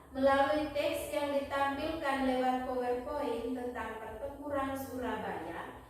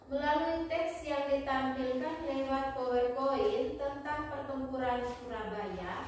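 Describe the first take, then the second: The two takes are said the same way.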